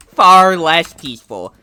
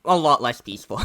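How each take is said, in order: First: "Far" slow and loud; stress on Far. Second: Said in the usual way. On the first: Shown as a demonstration. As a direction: lean hard on "Far" and slow down.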